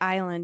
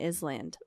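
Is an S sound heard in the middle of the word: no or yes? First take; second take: no; yes. First: It is said with no S sound. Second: It is said with an S sound.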